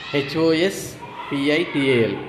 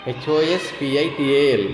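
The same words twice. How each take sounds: First: Each letter drawn out slowly; slow spelling. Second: Said in the usual way. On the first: Shown as a demonstration. Teacher spelling hospital slowly for learners. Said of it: "teacher spells word letter by letter". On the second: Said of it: "teacher repeats spelling".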